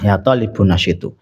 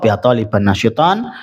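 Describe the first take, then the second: First: The words end with -un and -u sounds. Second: The words end with -an and -on sounds. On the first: The noun phrase takes the nominative ending. "boleh dhammah" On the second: The noun phrase takes the accusative ending. "lebih baik nasab"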